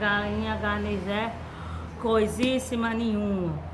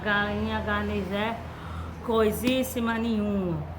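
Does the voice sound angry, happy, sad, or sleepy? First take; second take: sleepy; sleepy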